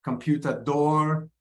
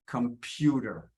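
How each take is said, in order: First: "Computador" slow, weight on final DOR; Portuguese end stress. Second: "computer" slow, stressed on PU; second-syllable stress. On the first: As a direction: draw out the last syllable of "Computador". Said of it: "stress in Portuguese tends to go to the end". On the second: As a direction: lean on the middle syllable of "computer". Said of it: "second syllable". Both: Shown as a demonstration.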